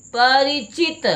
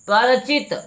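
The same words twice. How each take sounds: First: परिचित as "pa-RI-chit", slow and high; drawn-out परिचित with an "i" after r; corrected pronunciation. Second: परिचित as "par-chit", without the "ri"; mispronounced परिचित. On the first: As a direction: sound the "ri" clearly in परिचित. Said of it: "रा में छोटी ई की मात्रा". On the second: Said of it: "नहीं, परिचित". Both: Shown as a demonstration.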